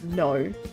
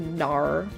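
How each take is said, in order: First: The word ends without an R sound. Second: The word ends with an R sound. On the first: "I feel like that's how I say it" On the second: "Not with an R at the end"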